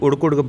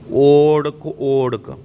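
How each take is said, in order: First: The word begins with a short 'u' vowel. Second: The word begins with a long 'o' vowel. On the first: The speaker calls it wrong. "ਇਹਨੂੰ ਉੜਕ ਉੜਕ ਨਹੀਂ ਕਹਿਣਾ" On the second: The speaker calls it right. "ਓੜਕ ਓੜਕ ਕਹਿਣਾ"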